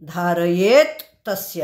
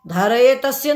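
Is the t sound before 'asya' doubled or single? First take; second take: doubled; single. First: A doubled t sound joins the two words. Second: A single t sound joins the two words. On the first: The speaker calls it right. "आहे" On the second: The speaker calls it wrong. "नाही"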